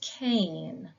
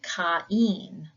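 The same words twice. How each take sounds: First: The two vowels blend into one sound. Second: The two vowels are said separately. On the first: This is the usual way the name is said. "in most of the times we would say this is Cain" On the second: This is how the Greek spelling is read. "in the Greek you would pronounce it Cain"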